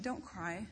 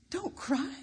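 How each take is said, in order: First: Soft, tender "Don't cry"; hushed reassuring "Don't cry", much softer; compassionate. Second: High, disbelieving "Don't cry"; bitter echo of "Don't cry", pitched high; incredulous protest. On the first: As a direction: comfort her gently. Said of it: "he spoke compassionately to her". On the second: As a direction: throw the words back in disbelief. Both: Retold or imitated.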